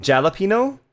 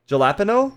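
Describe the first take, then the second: First: "Jalapeno" as jal-a-PEE-no, hard J, rising; spelling pronunciation. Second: "Jalapeno" as juh-LAP-uh-no, hard J, rising; spelling pronunciation. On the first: Streamer testing the spelled version, spelling pronunciation. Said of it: "I say jalapeno like it's spelled". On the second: Streamer trying it as spelled, spelling pronunciation. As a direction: stress LAP in "Jalapeno", English J. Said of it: "it's spelled like jalapeno". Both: Shown as a demonstration.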